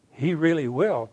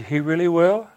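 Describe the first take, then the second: First: "he really will" stated with a falling end; retold assurance. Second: "He really will?" higher and louder, rising on "will"; retold hopeful question. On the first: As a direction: affirm "he really will", letting "will" drop as a statement. Preacher answers with assurance. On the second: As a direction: ask "He really will?" as a real question, voice lifting at the end. Dying man asks if it's true.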